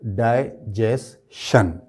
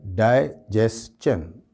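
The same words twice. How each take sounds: First: "डाइजेशन" slowly split dai, jes, shan; slow "डाइजेशन" with sh ending; common mispronunciation. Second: "डाइजेशन" slowly split dai, jes, CHUN; slow "डाइजेशन" with ch ending; correct pronunciation. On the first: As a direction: finish "डाइजेशन" on a shun sound. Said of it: "तो वो बोलते हैं". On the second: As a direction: finish "डाइजेशन" on a chan sound. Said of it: "इसका जो सही pronunciation है". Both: Shown as a demonstration.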